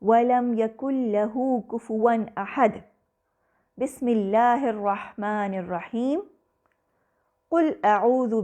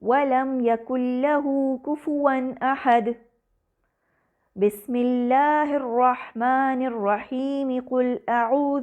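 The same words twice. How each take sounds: First: There are breath pauses before and after the basmala. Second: One pause comes before the basmala, then it flows on. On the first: Each part is recited separately. "आखिरी आयत के बाद सांस लिया, बसमला पढ़ा, फिर सांस लिया" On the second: The basmala is joined to the next chapter only. "रुककर सांस लेता है, फिर बसमला और अगली सूरत की पहली आयत मिलाकर पढ़ता है"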